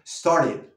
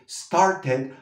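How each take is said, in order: First: The middle t is a quick flap. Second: The middle t is a hard, clear t. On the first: The speaker calls it right. "la T la vamos a usar como R" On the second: The speaker calls it wrong. "la T que no vamos a decir started"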